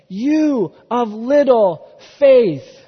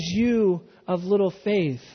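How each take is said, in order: First: Slow, louder, weighty Jesus rebuke; stern rebuke. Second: Gentle rebuke. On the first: Jesus rebuking sinking Peter, slow emphatic rebuke. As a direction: lean hard on each word like a gentle scolding. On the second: Jesus lifting Peter from the water, tender and slow. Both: Acted.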